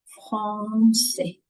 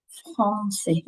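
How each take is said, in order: First: Français said with a plain a, no nasal; français as /fʀasɛ/, mouth open, no nasal vowel; wrong French. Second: Français with a nasal an; français as /fʀɑ̃sɛ/, nasal vowel clear; correct French. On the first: Teacher showing français mispronounced without the nasal. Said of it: "On ne dit pas". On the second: Teacher modelling français with a nasal vowel. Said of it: "C'est pas correct". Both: Shown as a demonstration.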